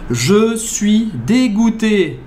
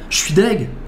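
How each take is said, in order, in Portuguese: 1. É dita devagar, com cada sílaba pronunciada. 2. É dita rápido, com a última palavra encurtada. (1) "Falando bem devagar, mastigadinho" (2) "você vai ouvir Je suis deg"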